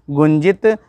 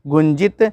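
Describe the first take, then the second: No difference in how they are said.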